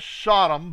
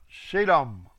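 First: The first vowel sounds like 'o' in 'sod'. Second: The first vowel sounds like 'e' in 'said'. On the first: This is the anglicized form of the name. The speaker calls it wrong. "it says Sodom, but it is not" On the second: This is the original Hebrew form of the name. The speaker calls it right. "It's Sedom"

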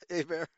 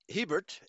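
First: The name is said the French way. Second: The name is said the English way. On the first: This is the speaker's own way of saying it. "but I pronounce it in the French" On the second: This is how the name's owner says it. "as he pronounces it"

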